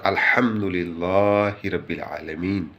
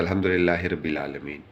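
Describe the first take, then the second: First: Measured, fully articulated "अल्हम्दुलिल्लाहि रब्बिल आलमीन"; correct careful recitation. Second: "अल्हम्दुलिल्लाहि रब्बिल आलमीन" fast and run together; hurried, skimmed "अल्हम्दुलिल्लाहि रब्बिल आलमीन"; careless everyday recitation. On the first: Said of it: "अल्फाज का सही तरीके से". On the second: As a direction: rush through "अल्हम्दुलिल्लाहि" with no held vowels. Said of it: "हम लोग पढ़ते हैं". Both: Shown as a demonstration.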